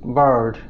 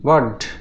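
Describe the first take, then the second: First: The vowel is followed by a curled r. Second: The vowel has no r sound after it. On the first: "আমেরিকানরাই এটার উচ্চারণ করবে" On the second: "আয়ারের উচ্চারণ ব্রিটিশরা করে আ"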